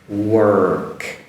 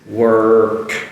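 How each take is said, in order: The two takes are said the same way.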